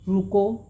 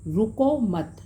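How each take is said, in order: First: "रुको" said alone with a rising tune, then a clear stop; pause after रुको. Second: "रुको मत" run together, falling on "मत", then a stop; pause after मत. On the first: Teacher showing students the comma after "रुको", rising then pausing. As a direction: break right after "रुको" so it means stop. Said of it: "रुको के बाद अल्प विराम हो". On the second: Teacher showing students the comma moved after "मत", falling then pausing. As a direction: join "रुको मत" and break after "मत". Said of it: "मत के बाद अल्प विराम". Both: Shown as a demonstration.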